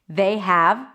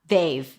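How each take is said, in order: First: The word have is said in full. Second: Have is reduced to just a v sound.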